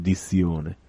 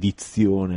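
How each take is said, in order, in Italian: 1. La z si dice senza t prima. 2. La z si dice con una t prima. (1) "ma dico dizione" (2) "non sono ancora capace di dire dizione"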